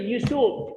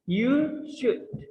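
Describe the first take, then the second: First: An L sound is heard in 'should'. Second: No L sound is heard in 'should'. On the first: The speaker calls it wrong. "We don't say you should" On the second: The speaker calls it right. "L-nya juga nggak dibaca"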